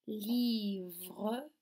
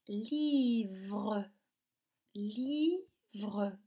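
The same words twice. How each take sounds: First: Said in the usual way. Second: "livre" in two drawn-out beats, li, vre; split into syllables. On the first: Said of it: "on va commencer par nommer ces objets". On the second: Shown as a demonstration. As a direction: hold li, then give vre separately in "livre". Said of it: "Combien de syllabes".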